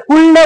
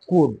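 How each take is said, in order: First: "कुल्ड" with L and D both sounded; wrong pronunciation. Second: "कुड" with the L dropped; silent L. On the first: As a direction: drag out "कुल्ड" as kool-duh. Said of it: "म्हणायचंच नाही". ("कुल्ड", ल उच्चारून) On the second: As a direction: say "कुड" as one short syllable. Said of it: "काय म्हणणार तुम्ही?". ("कुड", ल silent ठेवून) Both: Shown as a demonstration.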